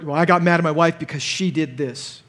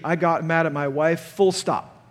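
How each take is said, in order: First: Said in the usual way. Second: I got mad at my wife, ending flat and final; owning it: "I got mad at my wife", full stop; corrected sentence, full stop. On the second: Shown as a demonstration. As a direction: stop hard after wife, no excuse. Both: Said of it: "That sentence should be".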